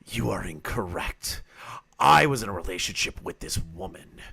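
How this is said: It is read in a put-on creepy voice.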